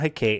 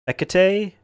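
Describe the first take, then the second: First: The name is said with two syllables. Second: The name is said with three syllables. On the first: The speaker calls it wrong. "It's not Hecate" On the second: The speaker calls it right. "It's definitely three syllables"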